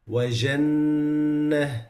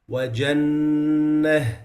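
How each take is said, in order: First: وجنة with a soft zh jim; loose soft jim. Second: وجنة with a firm jim, slowly; slow وجنة with a hard j; correct jim. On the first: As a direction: slide the j in وجنة into zh. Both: Shown as a demonstration. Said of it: "it becomes".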